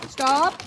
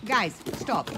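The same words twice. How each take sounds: First: High, loud shouted stop; shouting stop. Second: Loud command to the dogs; loud stop. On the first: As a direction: yell stop at the dogs. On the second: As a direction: tell them firmly to stop. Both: Real, not acted. Dogs jumping on her.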